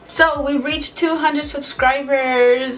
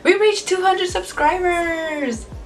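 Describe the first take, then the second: First: It sounds flat and unexcited. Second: It sounds lively and excited.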